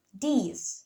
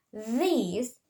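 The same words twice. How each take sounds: First: These said as "dese". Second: These, tongue between the teeth, voiced TH; correct voiced TH. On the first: Student teacher showing how Indonesian learners substitute D, TH as D. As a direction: these with a hard D for the TH. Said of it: "they might use". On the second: Student teacher showing the English sound in these, correct voiced TH. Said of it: "And for". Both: Shown as a demonstration.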